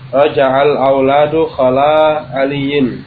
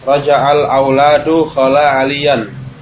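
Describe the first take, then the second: First: The last word ends with an 'in' sound. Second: The last word ends with an 'an' sound. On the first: The word 'khala' is treated as a preposition. "Kalau dibaca khala aliyin berarti khala itu apa? ... Huruf jar" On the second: The word 'khala' is treated as a verb. "Kalau dibaca mansub"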